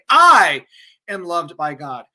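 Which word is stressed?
I. The stress is on the word I.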